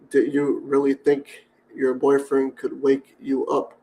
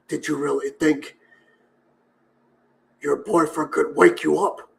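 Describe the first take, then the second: First: It is said in the speaker's normal voice. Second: It is said in a put-on villain voice.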